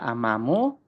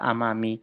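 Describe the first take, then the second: First: The word ends with a u vowel. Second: The word ends with an i vowel. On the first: "Tidak bisa amamu" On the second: "tidak bisa amami"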